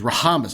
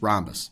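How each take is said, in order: First: The h sound is pronounced aloud. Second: The h sound is left silent. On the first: The speaker calls it wrong. "I'm just kidding" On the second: The speaker calls it right. "The H is silent"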